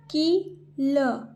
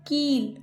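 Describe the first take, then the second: First: कील slowly as की, pause, ल; split syllables. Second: Said in the usual way. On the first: Shown as a demonstration. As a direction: sound out कील with long ee. (कील को तोड़कर, की-ल) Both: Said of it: "जैसे मैं बोल रही हूँ".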